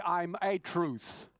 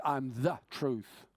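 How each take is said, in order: First: "I'm a truth" very slow, "a" said as "ay"; stress on a. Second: "I'm the truth" slow and weighty; stress on the. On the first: Preacher showing the wrong wording, slow stress on a. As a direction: stretch the wrong article "a" out long. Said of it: "He didn't say". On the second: Preacher quoting Jesus, slow stress on the. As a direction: settle firmly on "the". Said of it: "He says". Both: Shown as a demonstration.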